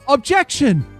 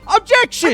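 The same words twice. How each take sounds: First: It is said in a deep, low voice. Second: It is said in a higher-pitched voice. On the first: One character is speaking. "His voice is lower than Phoenix's" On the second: A different character is speaking. "Phoenix has a higher voice"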